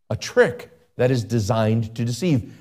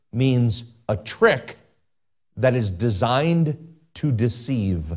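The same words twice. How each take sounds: First: Said in the usual way. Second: Slow emphasis. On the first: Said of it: "repeats phrase". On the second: Shown as a demonstration. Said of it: "repeats phrase for emphasis".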